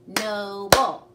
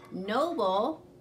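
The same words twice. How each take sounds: First: Loud, punched "Noble" in two beats; clapped syllables. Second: Slow, stretched noble; syllables slowly spelled out. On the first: Teacher leading class, clapping "Noble" out loud. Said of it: "Let's clap noble". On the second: Teacher to pupils, saying "noble" slowly and clearly. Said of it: "you'll hear two syllables". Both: Shown as a demonstration.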